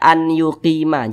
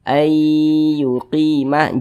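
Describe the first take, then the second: First: The n is said separately before the y. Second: The n merges into a nasal doubled y. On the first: The speaker calls it wrong. "jangan dibaca" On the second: The speaker calls it right. "Kita baca"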